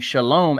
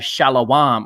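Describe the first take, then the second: First: The word has two syllables. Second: The word is stretched into three syllables. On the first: "the popular greeting Shalom" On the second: "they pronounce ... as Shalawam"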